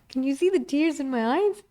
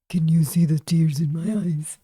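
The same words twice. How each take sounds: First: It is said in the speaker's normal voice. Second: It is said in a changed, put-on voice.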